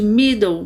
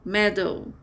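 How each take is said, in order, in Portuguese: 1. A primeira vogal é longa. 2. A primeira vogal é curta. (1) "esse E vai ficar com som de vogal longa... mas esse não é a pronúncia correta" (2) "as duas vogais fechadas e curtas. E o som correto é middle"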